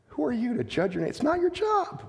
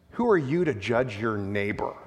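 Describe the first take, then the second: First: "Who are you to judge your neighbor?" fired off fast and pointed; quick pointed retort. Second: Said in the usual way. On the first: Shown as a demonstration. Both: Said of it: "repeats the line differently".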